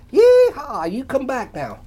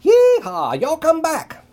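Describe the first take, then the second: First: High loud happy holler; yeehaw holler. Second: High, loud yeehaw holler; enthusiastic yell. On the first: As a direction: let out a big yeehaw. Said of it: "Ray let out a". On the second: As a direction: holler it out happily. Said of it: "Ray yelled enthusiastically". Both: A narrator's reading.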